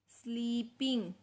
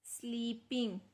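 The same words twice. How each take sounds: The two takes are said the same way.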